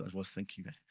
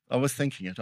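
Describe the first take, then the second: First: Sheepish quiet confession. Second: Said in the usual way. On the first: Real, not acted. Preacher owns up to the church, sheepishly soft. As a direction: drop much softer, like owning up. Confessing a near-swear to the congregation.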